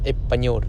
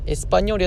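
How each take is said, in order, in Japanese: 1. sの音は落ちて、短く引っかかる感じになります。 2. pの前のsの音は発音されます。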